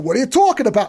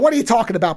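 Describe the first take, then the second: First: It is said in a heavy New York accent. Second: It is said in a plain, mild American accent. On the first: "he doesn't try to go" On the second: "He just says the phrase as Bob Hoskins doing American"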